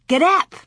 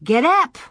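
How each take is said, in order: First: High, sharp call to animals; shouted command. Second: Raised, firm command; stern. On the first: Almanzo starts his calves with the whip, shouted command. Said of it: "cracked his whip and shouted". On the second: Almanzo commands the stopped calves, stern. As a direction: order the animals firmly. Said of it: "Almanzo sternly said". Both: A narrator's reading.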